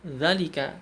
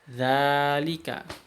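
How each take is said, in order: First: The first vowel is said short. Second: The first vowel is said long. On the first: The speaker calls it wrong. "Kalau kita baca melihatnya, maka kita akan baca zalika" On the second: The speaker calls it right. "kita bacanya dengan memanjangkan za"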